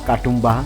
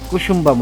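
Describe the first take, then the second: First: The name is said as Katumba, starting with ka. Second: The name is said as Kusumba, with an s sound. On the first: The speaker calls it wrong. "বিভিন্নভাবেই উচ্চারণ করেছি" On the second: The speaker calls it right. "আসল নাম হচ্ছে"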